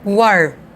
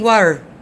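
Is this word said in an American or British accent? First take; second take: American; American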